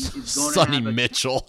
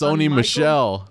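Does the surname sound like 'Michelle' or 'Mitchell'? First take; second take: Mitchell; Michelle. First: The surname sounds like Mitchell, with a t-ch sound. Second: The surname sounds like Michelle, with an sh sound. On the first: The speaker calls it wrong. "It's not Sonny Mitchell" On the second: The speaker calls it right. "It's Sony Michelle"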